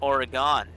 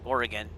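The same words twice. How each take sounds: First: It is said the way outsiders say it. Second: It is said the way locals say it. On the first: This is how people from elsewhere say it. The speaker calls it wrong. "which is how most people pronounce it where I'm from" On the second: This is the pronunciation people from there use. The speaker calls it right. "I have to say Oregon"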